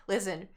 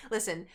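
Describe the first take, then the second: No difference in how they are said.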